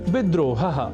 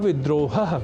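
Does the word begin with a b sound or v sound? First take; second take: b sound; v sound. First: The word begins with a b sound. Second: The word begins with a v sound. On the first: The speaker calls it wrong. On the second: The speaker calls it right.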